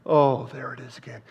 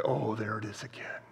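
First: Said in the usual way. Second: Whispered, delighted recognition. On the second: Shown as a demonstration. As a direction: breathe it out in wonder. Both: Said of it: "you exercise your faith and you say".

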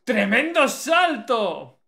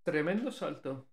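First: Loud, very slow, stretched-out exclamation; amazed shout. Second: Said in the usual way. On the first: Real, not acted. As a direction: marvel at it out loud.

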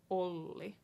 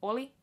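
First: Olli with the l held longer; Olli, linger on the l. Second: Oli with a quick single l; Oli, no hold on the l; short l. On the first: Teacher showing the long double l. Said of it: "stay on the L for a little longer". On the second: Teacher showing the short l first. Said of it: "Oli versus Olli". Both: Shown as a demonstration.

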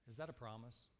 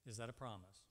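The two takes are said the same way.

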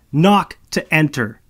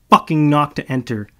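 First: Loud, slow, knock stressed word by word; slow yelled repeat. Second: Loud shout, fucking hit hardest; yelled rule. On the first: Malo repeats the rule after Marcus, slow and loud. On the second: Malo yells after the departing Marcus, loud. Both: Acted. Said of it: "I yell after him".

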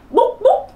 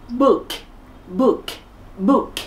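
First: "book" with a long oo, Vietnamese-style; mispronounced book. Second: "book" with short, lax u and crisp k; correct book. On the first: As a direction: stretch "book" into a wrong "boook". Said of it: "Nhiều bạn phát âm quyển sách là". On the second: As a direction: keep "book" short, ending on k. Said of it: "Mình phát âm chuẩn là gì?". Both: Shown as a demonstration.

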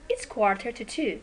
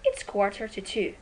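No difference in how they are said.

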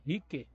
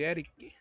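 First: "Rick" with no E before it; just "Rick", one short syllable. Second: "Eric" said with the E, as "Éric"; "Eric" with a full first vowel. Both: Real, not acted. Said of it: "É Eric não, mas é Rick".

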